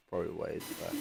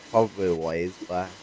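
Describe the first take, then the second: First: Softer, trailing repeat of probably ways back; quiet afterthought. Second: Said in the usual way. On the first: Real, not acted. Echoing his own words to the listener, quietly trailing off. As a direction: let probably ways back fade away under your breath. Repeats phrase, second fades.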